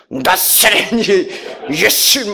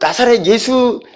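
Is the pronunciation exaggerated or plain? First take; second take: exaggerated; plain. First: The name is pronounced in a dramatic, exaggerated way. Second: The name is pronounced in a plain, ordinary way. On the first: This is how the leaders said it. "이렇게 하셔요" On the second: This is not how the leaders said it. "이렇게 발음도 이렇게 안 하시죠"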